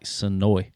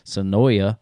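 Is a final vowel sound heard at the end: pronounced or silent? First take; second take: silent; pronounced. First: The final vowel sound is silent. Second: The final vowel sound is pronounced. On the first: The speaker calls it right. "I actually pronounce it like Sonoy, like the A is silent" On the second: The speaker calls it wrong. "we always look at Southerners, Sonoya"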